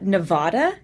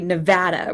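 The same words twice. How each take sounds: First: The middle vowel is a broad, long A. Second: The middle vowel is a short, flat A. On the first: The speaker calls it wrong. "It's not Nevada, as Kerry had said" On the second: The speaker calls it right. "that short A, like as flat an intonation as possible"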